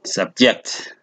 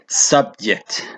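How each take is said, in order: First: The stress is on the second syllable. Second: The stress is on the first syllable. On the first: It is a verb. "Sometimes the syllable could be on the second syllable" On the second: It is a noun. "sometime the first syllable is stressed"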